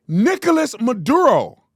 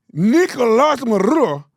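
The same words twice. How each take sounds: First: Nicolas Maduro slow, louder, overdone Spanish accent; exaggerated Spanish accent. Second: Nicolas Maduro slow and louder with a Spanish R; mock Spanish accent. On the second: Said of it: "What are you saying?". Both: Shown as a demonstration.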